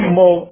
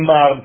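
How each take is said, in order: First: The word is said with an 'o' vowel. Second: The word is said with an 'a' vowel. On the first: The word means master or teacher. The speaker calls it right. "אומרים מור" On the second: The word means bitter. The speaker calls it wrong. "לא אומרים מר, כי זה מר"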